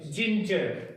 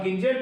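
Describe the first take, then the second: First: जिंजर with a soft j sound, as in jam; correct soft g. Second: गिंजर with a hard g, as in go; wrong hard g. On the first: Teacher gives the right way after the wrong one, soft j. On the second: Teacher shows the wrong way to say the word, hard g. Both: Shown as a demonstration. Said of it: "गिंजर तो नहीं कहेंगे ना".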